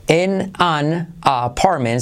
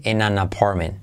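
First: "En an apartment" said as separate words; careful, spaced-out "En an apartment"; unlinked words. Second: "en an apartment" run together as one word, like "enanapormen"; smoothly joined "en an apartment"; linked words. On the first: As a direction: say "En an apartment" word by word, with gaps. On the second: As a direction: link "en an apartment" with no gaps. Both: Shown as a demonstration. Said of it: "se convierte en an apartment".

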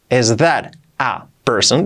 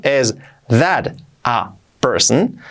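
First: Slow model. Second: Is that a person stretched very slowly. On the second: Teacher repeats slowly for beginners. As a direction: drag each word out slowly. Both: Shown as a demonstration. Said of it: "Dicho despacio".

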